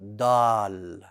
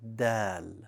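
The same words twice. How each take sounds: First: The sound is heavy, with a full, bold quality. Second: The sound is light, with a soft quality. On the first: The speaker calls it wrong. "Do not make it bold. Do not say dal. That's incorrect" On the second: The speaker calls it right. "It's dal, like a soft D in the English language"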